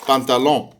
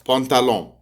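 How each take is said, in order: The two takes are said the same way.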